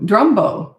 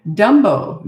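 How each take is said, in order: First: Drumbo with a clear dr at the start; Drumbo, correcting the misreading; corrected place name. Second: Dumbo said without the r, as a first guess; a quick wrong take, Dumbo; misread place name. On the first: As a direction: fix it to Drumbo, dr sound in. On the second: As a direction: read the sign wrong as Dumbo. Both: Real, not acted.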